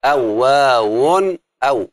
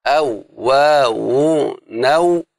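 First: Slow "أو واو أو" with the final "أو" detached; chanted scansion of "أو واو أو", link broken before the last "أو"; broken metre. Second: Very slow "أو واو نو", each vowel stretched and joined on; elongated metrical chant of "أو واو نو", linked through; linked scansion. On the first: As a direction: stretch "أو واو", then restart on "أو" with a glottal stop. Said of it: "انكسر الوزن". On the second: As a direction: draw out "أو واو نو" with no glottal break before the last syllable. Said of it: "همزة القطع جعلها وصل". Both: Shown as a demonstration.

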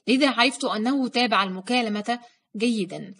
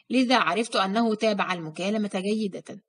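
First: جيدا said with the correct -an ending; corrected reread, جيدا ending in -an; corrected reading. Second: جيدة read with a feminine -a ending, a reading slip; reading slip on جيدة with the wrong case ending; misread ending. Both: Shown as a demonstration.

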